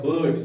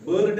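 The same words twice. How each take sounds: First: "बर्ड" with no R sounded; silent R. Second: "बर्ड" with the R sounded hard; wrong pronunciation. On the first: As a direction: say "बर्ड" as buhd. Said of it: "R यहाँ silent रहेगा". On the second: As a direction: voice the R before the d in "बर्ड". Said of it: "बर्ड नहीं पढ़ना है". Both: Shown as a demonstration.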